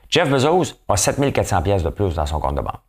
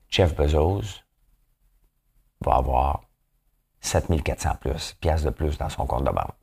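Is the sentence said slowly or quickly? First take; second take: quickly; slowly. First: It is said very quickly. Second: It is said slowly and calmly.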